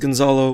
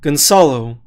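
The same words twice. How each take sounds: First: The middle consonant sounds like a z. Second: The middle consonant sounds like an s. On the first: The speaker calls it wrong. "Everyone kind of says Gonzalo" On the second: The speaker calls it right. "the C is pronounced like soup"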